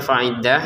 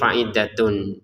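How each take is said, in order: First: The word ends with a breathy 'h' sound. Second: The word ends with a 'tun' syllable. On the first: The reader pauses after this word. "yang menjadi hak di sini karena ber, berhenti" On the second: The reader continues into the next words. "Kalau disambung menjadi fa'iddatun"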